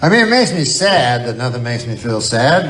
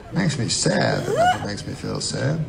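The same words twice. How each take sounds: First: Said in the usual way. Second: Softer slogan reading of "Makes me sad that nothing makes me feel sad"; softly savoured reprise of "Makes me sad that nothing makes me feel sad"; softer, slower, savoured repeat of "Makes me sad that nothing makes me feel sad". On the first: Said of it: "That's a pretty good one". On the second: Shown as a demonstration. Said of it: "put that on the side of a cup".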